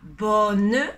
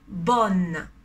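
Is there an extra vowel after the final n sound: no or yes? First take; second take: yes; no. First: An extra vowel sound follows the final n. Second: The word ends cleanly on the n sound. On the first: The speaker calls it wrong. "on ne dit pas bonne" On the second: The speaker calls it right. "On ne prononce pas le E à la fin"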